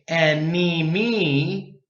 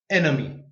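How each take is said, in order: First: The unstressed vowel is long and full. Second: The unstressed vowel is reduced to schwa. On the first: The speaker calls it wrong. "We don't say enemy. It's too long" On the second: The speaker calls it right. "You schwa"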